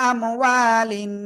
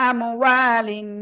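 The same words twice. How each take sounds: Both takes have the same delivery.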